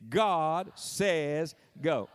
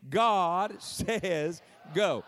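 First: Drawn-out preacher's proclamation; very slow preacher delivery, each word stretched. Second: Very slow, fervent Pentecostal proclamation; drawn-out Pentecostal pulpit cry; Pentecostal preacher. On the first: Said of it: "say it like a preacher". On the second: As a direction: stretch every word like a Pentecostal preacher. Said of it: "say it like a Pentecostal preacher". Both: Shown as a demonstration.

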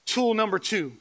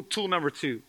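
First: "Tool number two" said higher, each word separated cleanly; firm, careful restart on "Tool number two"; careful articulation. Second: Said in the usual way. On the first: Real, not acted. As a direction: pronounce "Tool number two" deliberately, as a tongue-twister retry. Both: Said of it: "That's hard to say".

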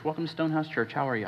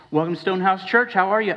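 First: Softer, rote welcome with no energy; perfunctory greeting. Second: Louder, higher and fast, bright fake cheer; chirpy church greeter. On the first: Retold or imitated. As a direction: toss it off like a bored greeter on autopilot. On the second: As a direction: greet them like a relentlessly upbeat usher.

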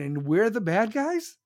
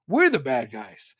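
First: Rising, disbelieving tune on guys; And we're the bad guys? as a scoffing question; incredulous question. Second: We're the bad guys falling, a bit louder; sarcastic flat statement. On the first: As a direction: ask it like it's absurd. Incredulous question then repeated. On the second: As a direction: state it back with bitter sarcasm. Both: Real, not acted.

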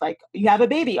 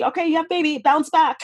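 First: Said in the usual way. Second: Put-on much higher, breezy sarcastic "you have a baby, bounce back"; sarcastic mock chirp. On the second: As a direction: parody the cheery push to recover fast. Mocking expectations after having a baby.

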